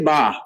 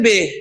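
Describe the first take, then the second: First: The letter name ends in an 'a' vowel. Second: The letter name ends in an 'e' vowel. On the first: "अरबी में ... आप इसे कहेंगे बा" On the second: "Urdu में हम इसे कहते हैं बे"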